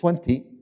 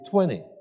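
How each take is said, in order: First: The T in the middle is clearly pronounced. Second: The T in the middle is dropped. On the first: "instead of saying 20" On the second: "I come from the South, ... we say 20"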